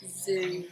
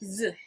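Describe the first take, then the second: First: The vowel is a long oo sound. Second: The vowel is a short uh sound. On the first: The speaker calls it right. "So it must be the longer oo sound" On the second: The speaker calls it wrong. "if we tried the short one"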